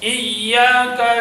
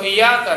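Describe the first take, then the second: First: The y sound is doubled and held. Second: The y sound is single, not doubled. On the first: The speaker calls it right. "यहाँ पे शब्द पढ़नी है" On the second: The speaker calls it wrong. "ये भी गलत है"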